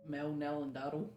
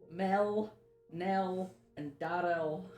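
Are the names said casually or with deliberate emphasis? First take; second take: casually; emphasis. First: The names are said casually, without extra effort. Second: The names are said with deliberate, effortful emphasis. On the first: "Just, just say them" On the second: "say them with the emphasis"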